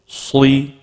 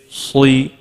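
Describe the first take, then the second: No difference in how they are said.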